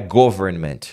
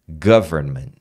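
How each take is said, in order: First: The first syllable sounds like 'go'. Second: The first syllable does not sound like 'go'. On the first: The speaker calls it wrong. "não é government, não é go, go" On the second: The speaker calls it right. "é g, government"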